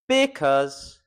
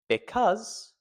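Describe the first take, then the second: First: The stress lands on a syllable that sounds odd. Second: The stress lands on a syllable that sounds natural. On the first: The speaker calls it wrong. "If I were to stress the wrong syllable, it would sound a bit weird" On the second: The speaker calls it right. "But if I stress the right syllable"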